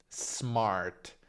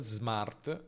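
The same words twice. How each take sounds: First: It begins with a voiceless hissing s sound. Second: It begins with a voiced buzzing z sound. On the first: "quindi con s sorda" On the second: "se hai mai sentito un italiano dire smart con sm"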